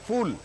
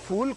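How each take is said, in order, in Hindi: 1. यह 'f' ध्वनि से शुरू होता है, जैसे अंग्रेज़ी 'fool' में। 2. यह 'f' ध्वनि से शुरू होता है, जैसे अंग्रेज़ी 'fool' में।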